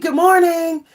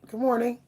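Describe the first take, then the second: First: It is said with high, lively energy. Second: It is said in a calm, relaxed way.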